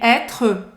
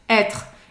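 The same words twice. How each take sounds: First: The word ends with a vowel after the R. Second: The word ends on the R sound. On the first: The speaker calls it wrong. "nem être" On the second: The speaker calls it right. "A pronúncia dele termina no R"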